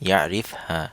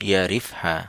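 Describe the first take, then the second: The two takes are said the same way.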